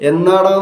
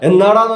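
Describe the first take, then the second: First: The question is asked in a soft, gentle tone. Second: The question is asked in a harsh, angry tone. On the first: The asker is being kind. "അത് സൗമ്യമായ ഭാഷ" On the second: The asker is annoyed. "അത് ദേഷ്യമാണ്"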